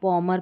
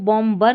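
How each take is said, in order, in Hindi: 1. b की ध्वनि silent है। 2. b की ध्वनि बोली जाती है। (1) "बॉमर पढ़ना है" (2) "इसको बॉम्बर नहीं पढ़ना है"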